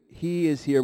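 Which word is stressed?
he. The word 'he' is stressed. "with an emphasis on the he"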